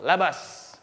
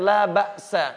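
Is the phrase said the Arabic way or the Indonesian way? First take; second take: Indonesian; Arabic. First: It is said the Indonesian way, run together. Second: It is said the Arabic way. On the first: "Orang Indonesia dibaca dengan langsung labas"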